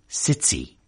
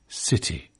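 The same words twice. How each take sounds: First: The t is affricated with a hissing release. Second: The t is aspirated with a breathy puff. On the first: "affricated, to use the jargon, in Liverpool city" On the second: "It's aspirated, whispered, in British English"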